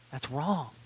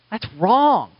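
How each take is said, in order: First: Much softer, almost under the breath; hushed verdict. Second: Firm verdict, lifted and strong; firm condemnation. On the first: Pastor repeating his verdict on shielded predators, very softly. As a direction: let the second verdict sink in, barely voiced. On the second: Pastor condemning churches that shield abusers, firm and raised. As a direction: state it flat out as a verdict. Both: Real, not acted.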